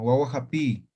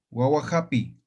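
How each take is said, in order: First: Guaguajapi with the last i held long; lengthened final vowel. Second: Said in the usual way. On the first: Shown as a demonstration. Teacher correcting the short version for students, long-ending guaguajapi. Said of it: "No digo así, sino guaguajapi". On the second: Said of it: "No digo así".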